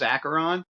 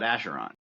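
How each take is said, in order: First: The middle consonant sounds like a 'k'. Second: The middle consonant sounds like 'sh'. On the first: This is the standard pronunciation. "the way you do pronounce that is Acheron" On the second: This is a personal preferred pronunciation. "Vince likes to call it Asheron"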